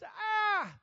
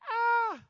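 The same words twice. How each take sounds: First: The scream sounds deep and masculine. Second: The scream sounds high and feminine.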